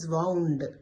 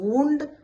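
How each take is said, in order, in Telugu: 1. ఈ అచ్చు 'cow' లోని 'ow' లాగా ఉంటుంది. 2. ఈ అచ్చు 'moon' లోని 'oo' లాగా ఉంటుంది. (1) "వౌండ్ అప్ అని చదవాలి because it's a verb here" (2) "ఏదైనా గాయం అయినప్పుడు వూండ్ అయింది అంటారు"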